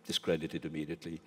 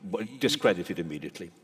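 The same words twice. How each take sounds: First: Softer repeat of own words; a quieter, musing echo. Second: Said in the usual way. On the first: Real, not acted. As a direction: say it again softly to yourself.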